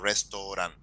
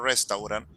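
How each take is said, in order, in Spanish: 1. Se dice con pronunciación inglesa. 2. Se dice con pronunciación española. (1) "sino restaurant" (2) "te sale exactamente como si fuese en español"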